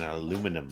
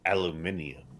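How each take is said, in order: First: It is said the American way, four syllables. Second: It is said the British way, five syllables.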